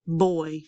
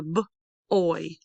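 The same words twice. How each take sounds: First: Said in the usual way. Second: B-oy split after the b; sounded out. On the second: Shown as a demonstration. Teacher breaks down picture word, b-oy in parts. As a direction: slowly say b, pause, then oy. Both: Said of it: "Did you hear a".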